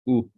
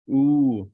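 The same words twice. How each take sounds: First: The vowel is cut short. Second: The vowel is held long. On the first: "the short one is ooh" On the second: "This is the long one"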